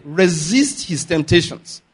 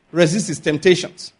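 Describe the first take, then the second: First: Slow, weighty repeat of resist his temptations; emphatic repeat. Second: Said in the usual way. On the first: Shown as a demonstration. Preacher stressing the point to the congregation, slow and weighty. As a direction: lean hard on resist, drawn out. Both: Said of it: "Very importantly".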